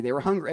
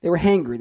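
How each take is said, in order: First: "hungry" with the normal short u sound. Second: "hangry" with a clear open a, like angry with an h. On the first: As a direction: say "hungry" plainly, hung-gree. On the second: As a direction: land hard on "hangry", hang-gree. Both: Shown as a demonstration. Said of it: "I meant hangry".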